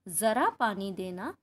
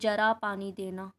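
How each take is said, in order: First: The first word starts with a z sound. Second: The first word starts with a j sound. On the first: Please give a little water. The speaker calls it right. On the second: Old age, please give water. The speaker calls it wrong.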